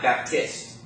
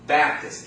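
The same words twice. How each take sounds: First: The stress is on the second syllable. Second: The stress is on the first syllable. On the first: The speaker calls it wrong. "It's not" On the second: The speaker calls it right. "First syllable"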